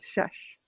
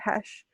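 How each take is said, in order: First: The word begins with an sh sound. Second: The word begins with an h sound. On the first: This is the form borrowed from Bangla. "the Bangla pronunciation" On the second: This is the traditional Sylheti form. "Sylheti h"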